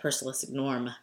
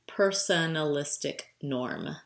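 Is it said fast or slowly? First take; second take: fast; slowly. First: It is said fast. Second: It is said slowly.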